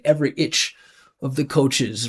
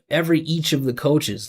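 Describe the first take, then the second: First: The vowel in 'each' sounds like 'itch'. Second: The vowel in 'each' sounds like 'each'. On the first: The speaker calls it wrong. "it sounds like he's saying like every like time" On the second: The speaker calls it right. "Instead of"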